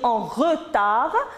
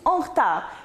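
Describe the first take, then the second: First: The vowel after the r is pronounced. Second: The vowel after the r is dropped.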